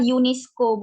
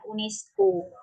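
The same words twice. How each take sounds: First: It is said with its original international pronunciation. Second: It is said with Indonesian letter sounds. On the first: The speaker calls it right. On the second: The speaker calls it wrong.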